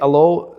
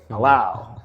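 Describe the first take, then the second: First: The last syllable rhymes with 'low'. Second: The last syllable rhymes with 'cow'. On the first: The speaker calls it wrong. "so I used to say allo" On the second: The speaker calls it right. "now we're gonna pronounce it the right way"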